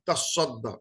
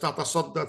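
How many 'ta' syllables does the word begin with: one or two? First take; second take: one; two. First: The word begins with one ta syllable. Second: The word begins with two separate ta syllables. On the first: This is the form changed by assimilation. "তাসদ্দা হতে পারে, due to assimilation" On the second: This is the full original verb form. "Real শোয়াটা তাতাসদ্দা"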